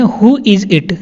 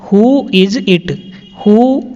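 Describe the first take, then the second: First: Said in the usual way. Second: "Who is it?" said very slowly, each word apart; slow clear repetition. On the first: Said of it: "teacher repeats sentence". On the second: Shown as a demonstration. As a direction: model it slowly for the class. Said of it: "teacher repeats sentence slowly". (धीरे-धीरे साफ़ बोलना)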